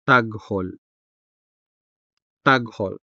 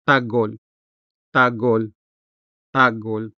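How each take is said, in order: First: Said in the usual way. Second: Taghol as "Tagol", h dropped; weak h. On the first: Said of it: "translating as". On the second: Shown as a demonstration. Tutor says take a listen, casual "Tagol" with weak h. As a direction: say "Tagol", letting the g run straight into ol. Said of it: "it sounds weak in casual or informal speech".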